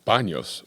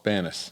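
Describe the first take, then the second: First: The name is said with a Spanish 'ny' sound. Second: The name is said with a plain English 'n' sound. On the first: This is the technically correct form. "Technically, it's I think it's Baños" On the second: This is how locals say it. "if you're from there, it's Los Banos. That's how we say it"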